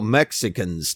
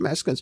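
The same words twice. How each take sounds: First: The word is said with ordinary English sounds. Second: The word is said with Spanish-style sounds. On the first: This is the everyday name people use. "what we call Mexicans today" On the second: This is the proper way to say the name. "if you know the proper pronunciation"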